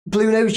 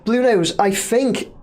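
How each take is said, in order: First: Said in the usual way. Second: "Blue Nose" said slowly and deliberately for a viewer who can't hear; slower and clearer. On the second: Shown as a demonstration. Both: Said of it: "I was gonna shout then".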